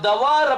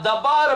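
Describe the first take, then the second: First: The middle consonant is a v sound. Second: The middle consonant is a b sound. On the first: This is the modern form of the word. "மாடர்னா இப்போ pronounce பண்ணும்போது" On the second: This is the older form of the word. "அத தபார் அப்படினு சொல்லி சொல்வாங்க"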